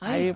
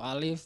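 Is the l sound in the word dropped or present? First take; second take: dropped; present. First: The word is said without the l sound. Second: The word is said fully, with its l sound.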